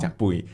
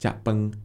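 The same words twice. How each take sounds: First: It is said in Penang Hokkien. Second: It is said in central Malaysian Hokkien.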